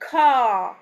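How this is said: It is said with a British accent.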